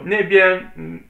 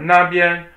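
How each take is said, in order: First: The first syllable has an 'e' vowel. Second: The first syllable has an 'a' vowel. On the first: "a lot of Chinese people will actually just say nebiar. They don't say na, they say ne" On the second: "you can say either one"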